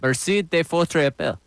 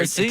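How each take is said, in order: First: It has a Spanish-sounding accent. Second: It has a more French-sounding accent.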